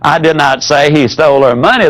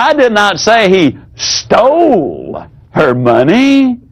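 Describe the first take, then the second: First: It is said evenly, with no word stressed. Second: The stress falls on the word stole.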